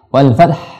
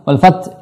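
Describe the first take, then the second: First: The t sound is dropped. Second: The final h sound is dropped. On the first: "hilang taknya, nggak boleh" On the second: "hilang haknya, ini salah"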